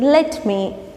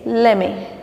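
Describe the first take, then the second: First: Both words are said fully and separately. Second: The words are run together as lemme. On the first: "Instead of saying let me" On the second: "you can say let me. ... L E M M E"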